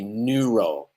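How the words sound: It starts with a long, tense 'new' sound. "British people say neuro, new, new, which is a tense vowel that is long"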